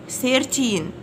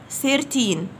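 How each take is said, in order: Both takes have the same delivery.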